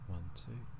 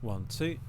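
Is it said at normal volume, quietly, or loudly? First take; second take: quietly; normal. First: It is said quietly. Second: It is said at a normal volume.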